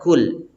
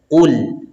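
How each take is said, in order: First: The first consonant is thin and light. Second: The first consonant is deep and heavy. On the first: The speaker calls it wrong. "tidak boleh kul" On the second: The speaker calls it right. "dibaca tebal yaitu qul"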